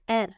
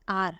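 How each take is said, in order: First: R named with an open e, like "err"; German letter R. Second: Said in the usual way. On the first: Shown as a demonstration. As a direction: say R as German "air". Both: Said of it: "and it pronounced as R".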